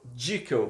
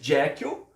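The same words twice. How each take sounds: First: The name is said the less familiar British way. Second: The name is said the commonly known way. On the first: "em alguns lugares eles falam Jekyll, para nossa surpresa" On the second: "a gente conhece Jekyll"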